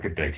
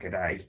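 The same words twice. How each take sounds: First: It is said without an Australian accent. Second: It is said with an Australian accent. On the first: "this was good day to you, sir" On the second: "the Australians would be like good day"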